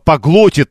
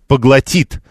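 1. Ударение на втором слоге. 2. Ударение на третьем слоге. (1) "Нет" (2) "ударение падает на третий слог"

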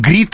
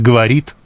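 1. Слово сокращено до одного слога. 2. Слово произнесено со всеми тремя слогами. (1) "мы говорим «грит»" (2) "вместо «говорит»"

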